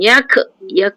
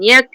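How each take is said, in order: First: The final k bounces with an echoing release. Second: The final k releases a soft puff of air. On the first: The speaker calls it wrong. "dia melantun yak yak ah gitu kan" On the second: The speaker calls it right. "angin tu terlepas keluar"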